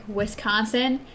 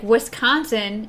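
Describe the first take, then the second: First: "Wisconsin" with a questioning rise; retold reply, "Wisconsin" rising; retold tentative answer. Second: "Wisconsin" drawn out slowly; imitated disbelief on a slow "Wisconsin"; retold disbelieving echo. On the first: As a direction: answer "Wisconsin" uncertainly, tune lifting at the end. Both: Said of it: "And they're like".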